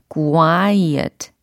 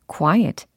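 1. 이 단어는 길게 늘어지고 지나치게 또박또박 발음됩니다. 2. 이 단어는 빠르고 자연스럽게 발음됩니다. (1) "이렇게 과장을 하자면 이 정도로 연습하시고" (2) "자연스럽게 하려면 quiet"

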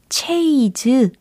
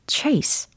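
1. ay 모음이 있고 z로 끝나요. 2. ay 모음이 있고 s로 끝나요. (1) "체이즈 아니고요" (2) "정답이 들립니다"

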